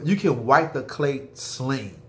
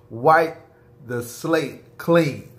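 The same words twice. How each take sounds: First: Said in the usual way. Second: "wipe" punched louder and higher, "the slate clean" slow; stress on wipe and clean. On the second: Shown as a demonstration. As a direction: hit "wipe" hard, then drag "the slate clean" slowly.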